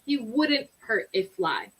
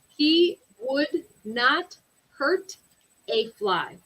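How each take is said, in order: First: Would not is contracted into one word, wouldn't. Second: Would not is said as two full words.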